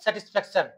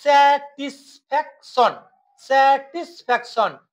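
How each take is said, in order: First: Said in the usual way. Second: স্যাটিসফ্যাকশন in four separated beats; broken into syllables. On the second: Shown as a demonstration. Teacher demonstrating polysyllables, স্যাটিসফ্যাকশন split in four. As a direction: sound out স্যা, টিস, ফ্যাক, শন. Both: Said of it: "তিনটির অধিক syllable থাকে".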